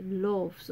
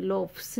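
First: "लोफ्स" said as "loavz", f turned to v; v-sound plural. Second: "लोफ्स" said with unvoiced f before s; f-s plural. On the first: Teacher modelling the plural, "लोफ्स" with a v sound. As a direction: soften the f of "लोफ्स" into a voiced v. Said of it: "means व". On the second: Teacher showing what not to say, "लोफ्स" with f-s. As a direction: say "लोफ्स" as "lofes", a hard f-s ending. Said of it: "नहीं बोलेंगे". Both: Shown as a demonstration.

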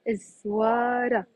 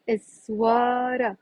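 The two takes are said the same way.

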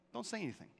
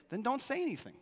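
First: Softer, "dont" leaned on with a falling close; hushed repeat. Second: "say" stressed, high and falling; preacher's firm command, "say" hit hard; firm warning. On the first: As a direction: drop to a near hush on "dont". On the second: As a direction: lay down the rule on "say". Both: Shown as a demonstration.

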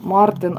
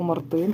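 First: Мартин stressed on the first syllable, МАР-тин. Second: Мартин stressed on the final syllable, мар-ТИН; stress on last syllable. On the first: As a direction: lean on the opening МАР in Мартин. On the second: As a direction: move the weight in Мартин onto ТИН. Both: Real, not acted. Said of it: "якщо десь неправильно наголос ставлю".

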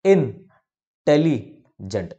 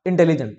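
First: "intelligent" slowly as इन, tele, gent; syllable by syllable. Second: "intelligent" fast, as one word; said quickly. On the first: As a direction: clear pauses inside "intelligent", part by part. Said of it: "कैसे बोलोगे". ("Intelligent" को धीरे, टुकड़ों में रुक कर) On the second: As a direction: run "intelligent" together without a break. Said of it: "तेज से ही बोलोगे". ("इंटेलिजेंट" तेज़ी से, एक साथ) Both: Shown as a demonstration.

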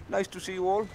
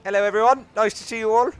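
First: Said in the usual way. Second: Loud, higher, beaming hello to the crowd; loud greeting. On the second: Pretend. Player greets the in-game crowd, loud and bright. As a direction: call it out to everyone like a host.

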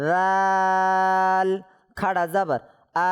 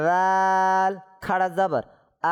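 First: Very slow রাল, then আল held long; three-alif stretch. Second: Long level vowels in রাল and আল; three-alif stretch. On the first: Teacher repeats for students who must stretch, long held aa in আল. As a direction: stretch the aa of আল evenly on one note. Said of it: "আবার বলি এটা". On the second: Teacher drills madd for students, long held aa in আল. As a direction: hold the aa of আল very long on one note. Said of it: "টানতে হবে না?". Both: Shown as a demonstration.

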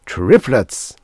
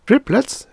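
First: Louder, punchy announcement; announcing news. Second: High, loud astonished question; exclaiming. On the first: Doctor breaks birth news to receptionist, announcing. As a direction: break the big news with force. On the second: Receptionist hears of the triple birth, exclaiming. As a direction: shoot the pitch way up in disbelief. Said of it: "She was exclaiming". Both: A narrator's reading.

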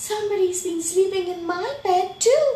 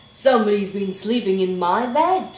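First: High, loud, quick dismay; shocked Mommy Bear. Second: Loud, quick, booming complaint; indignant Daddy Bear. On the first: Mommy Bear finding her bed slept in, high-pitched shock. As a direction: pitch it way up, rising at the end. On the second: Daddy Bear finding his bed slept in, loudly indignant. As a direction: boom it out, affronted. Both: A narrator's reading.

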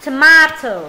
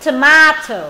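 No difference in how they are said.

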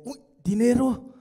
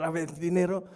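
First: Loud, eager cry of delight; excited gasp at money. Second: Said in the usual way. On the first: Retold or imitated. Mocking the audience's greedy reaction, excited cry. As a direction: exclaim it like money just caught your eye. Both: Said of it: "¿Qué dice dinero?".

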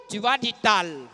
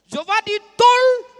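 First: Slower, lower "tal" with an open a; contrasting "tal". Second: High, loud "tol" with a rounded o; exasperated "tol". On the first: Commander mimicking his adjutant's correction, low falling "tal". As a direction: let "tal" fall, drawn out. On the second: Commander fed up with being corrected, high loud "tol". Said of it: "tu vas dire tol". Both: Acted.

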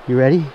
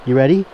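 Both takes have the same delivery.

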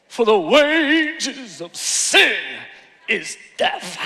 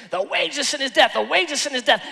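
First: Slow, drawn-out revival preacher delivery; Pentecostal voice. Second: Lightly mimicked rapid-fire preacher; imitated pastor preaching. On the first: Shown as a demonstration. Preacher demonstrates a verse for church, slow Pentecostal voice. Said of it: "I gotta say it in Pentecostal voice". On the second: Pastor rushing to the altar call, lightly imitated preaching. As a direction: rattle it off like a pastor. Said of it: "preached it, preached it, preached it".

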